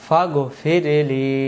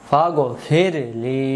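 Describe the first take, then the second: No difference in how they are said.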